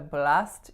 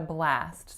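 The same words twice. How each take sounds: First: The A vowel is clean and pure. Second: The A vowel is tense and strained. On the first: The speaker calls it wrong. "I wouldn't say I had a blast yesterday" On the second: The speaker calls it right. "I'm really tensing that A"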